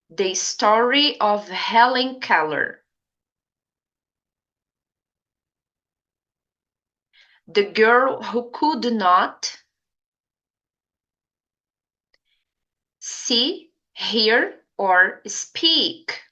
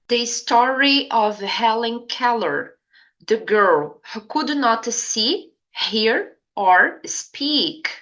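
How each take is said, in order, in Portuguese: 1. A frase é falada devagar. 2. A frase é falada em velocidade normal. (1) "repito lentamente as frases mais uma vez em inglês" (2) "eu vou falar a frase em inglês uma vez"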